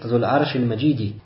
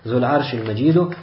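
First: The last word ends with an 'i' vowel. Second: The last word ends with a 'u' vowel. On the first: "С касрой на конце" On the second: "с даммой на конце «Аль-Маджиду»"

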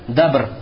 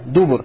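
First: The word has one a vowel, no second vowel. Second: The word has u vowels in both syllables. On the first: "с фатхой, тогда ты должен букву ба произнести с сукуном" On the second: "дубур пишется с даммой над даль"

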